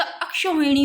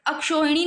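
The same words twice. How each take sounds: First: Widen the middle vowel of "अक्षोहिणी" to au; corrected pronunciation. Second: "अक्षोहिणी" quick, with plain o; rejected pronunciation. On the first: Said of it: "अक्षोहिणी होता है". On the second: Teacher showing the error, "अक्षोहिणी" with plain o. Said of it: "अक्षोहिणी नहीं होता". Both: Shown as a demonstration.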